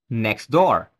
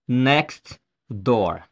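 First: The t at the end of 'next' is dropped and the words blend. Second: The t at the end of 'next' is clearly pronounced. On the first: The speaker calls it right. "You say next door" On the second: The speaker calls it wrong. "you don't say next door"

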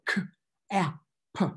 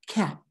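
First: The word is split into separate sounds. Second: The word is said as one whole. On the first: The reader is sounding out the word. "you go k-a-p" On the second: The reader blends the sounds into the word. "demonstrating how you simply sound out a word"

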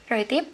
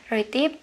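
No difference in how they are said.

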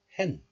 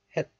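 First: The syllable ends in an n sound. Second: The syllable ends in a t sound. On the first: This is the syllable before a nasal sound. "becomes nasalized into niun sound" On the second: This is the syllable said on its own. "pronounced as het in isolation"

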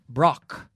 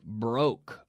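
First: The vowel is a short O sound. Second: The vowel is a long O sound. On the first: The speaker calls it wrong. "We don't say brock" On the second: The speaker calls it right. "It's like a very long O"

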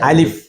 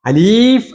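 First: The middle vowel is short. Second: The middle vowel is drawn out long. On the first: The speaker calls it right. "പിന്നെ എങ്ങനെ തന്നെ പറയണം?" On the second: The speaker calls it wrong. "എന്ന് പറയരുത്"

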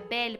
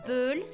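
First: The vowel is an open 'eh' sound. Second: The vowel is a neutral 'uh' sound. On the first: The speaker calls it right. "se pronuncia belle porque tenemos una E y después le sigue doble consonante" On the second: The speaker calls it wrong. "No se pronuncia belle"

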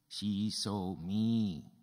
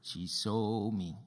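First: The stress is on the word me. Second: The stress is on the word saw. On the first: It was me, not someone else, who was seen. "Who did she see?" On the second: She saw rather than heard. "Did she see you or hear you?"

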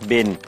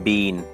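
First: It is said with an American accent. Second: It is said with a British accent. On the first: "อันนี้อเมริกันออกเสียงว่า" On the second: "ชาวอังกฤษออกเสียงว่า"

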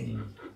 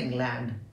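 First: The word is said quickly with its sounds run together. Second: The word is said slowly with every sound separate. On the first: This is how a first-language speaker says it. "I say England" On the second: This is how a learner might say it. "I don't say England"

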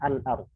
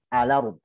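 First: A glottal stop is heard after the 'al'. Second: No glottal stop; the 'l' joins the vowel. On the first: "bukan baca al-arum" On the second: "memindahkan huruf hamzah ke huruf harokat sebelumnya dan membuang hamzah"

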